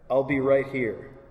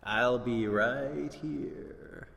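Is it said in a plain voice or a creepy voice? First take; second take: plain; creepy. First: It is said in a plain, ordinary voice. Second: It is said in a creepy put-on voice.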